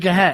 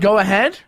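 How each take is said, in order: First: The two words are run together and contracted. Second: Both words are pronounced fully and separately. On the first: "we say go ahead" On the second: "instead of saying go ahead"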